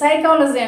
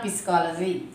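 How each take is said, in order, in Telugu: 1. ఈ పదం s శబ్దంతో మొదలవుతుంది, p లేదు. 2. ఈ పదం స్పష్టమైన p శబ్దంతో మొదలవుతుంది. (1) "హియర్ ఇట్స్ సైకాలజీ అండి" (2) "నాట్ పిస్కాలజీ"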